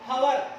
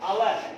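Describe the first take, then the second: First: The word begins with an audible h sound. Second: The word begins with a vowel, no h. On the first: The speaker calls it wrong. "హవర్ అని అనము" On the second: The speaker calls it right. "అవర్ అంటాం"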